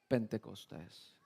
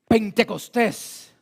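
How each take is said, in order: First: It is said flatly, with little energy. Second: It is said loudly, with strong energy.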